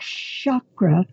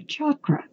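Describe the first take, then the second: First: The word begins with a soft sh sound. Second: The word begins with a hard ch sound. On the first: The speaker calls it wrong. "the sh sound is rather impolite" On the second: The speaker calls it right. "a correct pronunciation for the centers starts with the sound of chak"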